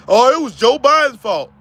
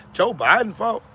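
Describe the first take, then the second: First: Loud, sneering parody of the excuse; mocking quote. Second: Flat, disbelieving question; incredulous echo. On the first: Mocking Trump supporters who blame Biden, in a sneering voice. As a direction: mimic them with scorn. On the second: Real, not acted. Echoing the excuse back to Lawanda in disbelief. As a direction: repeat it like you can't believe it.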